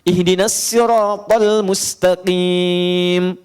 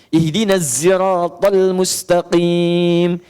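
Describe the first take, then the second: First: Sirat begins with a plain 's' sound. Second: Sirat begins with a 'z' sound. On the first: "bisanya sin" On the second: "dia pakai zai"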